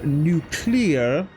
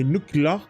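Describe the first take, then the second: First: The word is pronounced slowly and carefully. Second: The word is pronounced in a mangled way. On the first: The speaker calls it right. "I have to say it like that" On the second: The speaker calls it wrong. "otherwise I will say nuclear and mess it up"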